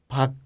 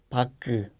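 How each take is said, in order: First: The final consonant is short and unreleased. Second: The final consonant is released and drawn out. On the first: The speaker calls it right. "Hay que ser corto" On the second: The speaker calls it wrong. "No puedes pronunciar como pak"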